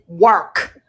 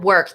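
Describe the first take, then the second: First: The word is said with extra force and length. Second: The word is said plainly, without extra force. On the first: The speaker calls it right. "It's like more" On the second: The speaker calls it wrong. "It's not work"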